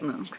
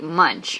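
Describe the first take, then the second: First: The name is said differently from its spelling. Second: The name is said just as it is spelled. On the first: The speaker calls it right. "but you say it Munch" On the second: The speaker calls it wrong. "it's spelled like munch"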